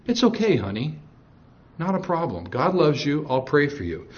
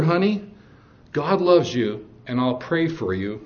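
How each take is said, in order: First: Soft, sugary reply with nothing behind it; sugary Satan. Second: Said with love. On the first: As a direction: sound sweet and kind, but hollow. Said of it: "That's how Satan would respond". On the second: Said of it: "And I said it with love". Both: Retold or imitated.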